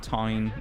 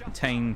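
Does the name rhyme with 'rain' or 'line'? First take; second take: line; rain. First: The vowel rhymes with 'line'. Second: The vowel rhymes with 'rain'. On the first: "people pronounce it kind of like Tyne. A bit like the River Tyne" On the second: "it can be called Tane"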